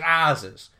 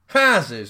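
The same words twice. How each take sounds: First: The word begins without any H sound. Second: The word begins with an audible H sound.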